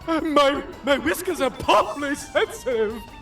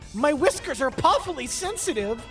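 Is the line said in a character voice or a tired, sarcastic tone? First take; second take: character voice; tired sarcastic. First: It is said in a put-on comedic character voice. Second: It sounds tired and sarcastic in a normal voice. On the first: "the fucking uh, Dom DeLuise voice" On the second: "tired, sarcastic tone"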